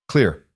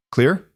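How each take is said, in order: First: "Clear" as a firm statement, falling tune; confirming. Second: "Clear" with high rising question tune. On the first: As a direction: answer "Clear" with pitch dropping at the end. Answer confirming the order. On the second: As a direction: ask "Clear" as a check, pitch lifting at the end. Boss asks for confirmation. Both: A narrator's reading.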